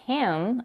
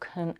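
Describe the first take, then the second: First: The vowel is full and clear. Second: The vowel is reduced to a weak sound.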